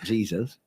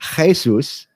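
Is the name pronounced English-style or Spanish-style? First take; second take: English; Spanish. First: The name is said with English pronunciation. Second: The name is said with Spanish pronunciation. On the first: The speaker calls it wrong. "and not" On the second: The speaker calls it right. "because of the fact it's a Spanish word"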